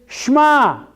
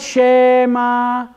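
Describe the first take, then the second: First: The first vowel is very short, nearly dropped. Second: The first vowel is a full vowel. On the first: The speaker calls it right. "The word is Shema" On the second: The speaker calls it wrong. "It is not Shema"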